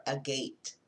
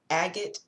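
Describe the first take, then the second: First: "agate" as uh-GATE, stressed on the second syllable; preferred pronunciation. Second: "Agate" as AG-it, stressed on the first syllable; alternative pronunciation. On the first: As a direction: say "agate" ending like the word gate. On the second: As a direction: say "Agate" with a short, unstressed ending. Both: Shown as a demonstration. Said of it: "I think it's agate".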